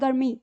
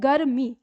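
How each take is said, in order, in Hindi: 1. 'r' को बहुत जल्दी बोला जाता है, आधा जैसा। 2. 'r' को पूरे अक्षर की तरह बोला जाता है। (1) "तो र जल्दी बोलता है" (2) "ऐसे लिखेंगे तो हम बोलते हैं गर्मी"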